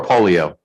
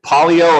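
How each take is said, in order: First: "polio" opened with a long OH; polio as POH-lio. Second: "polio" opened with an AH vowel; polio as PAH-lio. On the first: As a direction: pronounce "polio" POH-lee-oh. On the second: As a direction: pronounce "polio" PAH-lee-oh. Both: Shown as a demonstration. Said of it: "is it polio or polio?".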